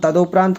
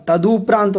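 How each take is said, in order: First: तदोपरांत as "ta-do-praant"; तदोपरांत with a rounded "do"; wrong long O. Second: तदुपरांत as "ta-du-praant"; तदुपरांत with "du", never "do"; corrected U form. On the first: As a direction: put an O after D in तदोपरांत. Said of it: "कोई शब्द नहीं होता". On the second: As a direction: put a U after D in तदुपरांत. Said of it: "तदुपरांत होता". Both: Shown as a demonstration.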